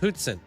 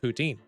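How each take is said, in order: First: It is said the French Canadian way. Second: It is said the English Canadian way. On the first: "if you're from the French-speaking part of Canada, you pronounce it poutine" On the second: "over here on the other side of Canada, we pronounce it poutine"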